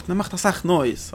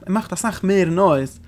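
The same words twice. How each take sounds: First: Said in the usual way. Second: Mehr drawn out, slow and weighted; stress on mehr. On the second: Shown as a demonstration. Teacher corrects the text, stressing mehr slowly. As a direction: lean on the word mehr to correct the phrase.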